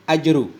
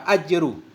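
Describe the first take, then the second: Both takes have the same delivery.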